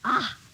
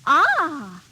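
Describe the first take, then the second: First: It sounds disgusted. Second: It sounds pleased.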